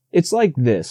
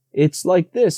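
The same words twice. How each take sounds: First: A hint of bear, mid pitch; lightly voiced Pooh fumbling for words. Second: Higher little piglet, quick; Piglet, quickly. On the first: Bear struggling to explain the house, lightly voiced. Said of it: "said Pooh". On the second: Piglet rescuing Pooh's explanation, higher and quick. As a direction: jump in fast in a small high voice. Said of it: "said Piglet quickly". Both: A narrator's reading.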